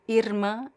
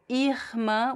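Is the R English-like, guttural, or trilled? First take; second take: trilled; guttural. First: The R is trilled with the tongue tip. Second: The R is made in the throat. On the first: "vibrant at the tip of your tongue here" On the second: "with the R in the throat"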